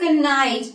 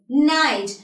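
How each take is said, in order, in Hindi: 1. शुरुआत में K ध्वनि सुनाई देती है। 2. शुरुआत में कोई K ध्वनि सुनाई नहीं देती। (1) "I won't say night" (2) "I'll just simply say"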